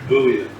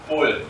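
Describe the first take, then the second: First: It is said in an American accent. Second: It is said in a British accent.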